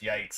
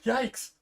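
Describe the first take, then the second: First: It sounds like a cringing reaction to something silly. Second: It sounds like a genuinely frightened exclamation.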